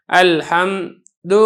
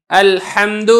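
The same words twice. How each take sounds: First: الحمد with a drawn-out stop on م before د; faulty over-held الحمد; too long a pause. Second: Slow الحمد, lips shut on م then د at once; slow careful الحمد; closed mim. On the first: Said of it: "سکون آپ کریں گے تھوڑا سا زیادہ کریں گے". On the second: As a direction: hold م closed in الحمد and release into د. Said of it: "میم کے اوپر آپ نے آواز کو مخرج کے اندر بند کر دینا ہے". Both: Shown as a demonstration.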